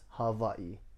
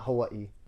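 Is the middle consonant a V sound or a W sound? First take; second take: V sound; W sound. First: The middle consonant is a V sound. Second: The middle consonant is a W sound. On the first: The speaker calls it right. "It's Hawaii. W's or V's" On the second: The speaker calls it wrong. "It's not Hawaii"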